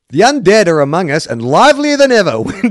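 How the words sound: The line is read in a light, comic tone. "Sounds like I'm reading a comedy"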